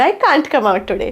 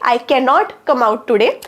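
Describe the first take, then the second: First: The negative is said as one contracted word. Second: The negative is said as two full words. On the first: "I कांट come out today छान वाटतंय ऐकायला" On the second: "कांटच्या ऐवजी I कॅन नॉट come out today सुद्धा बरोबर आहे"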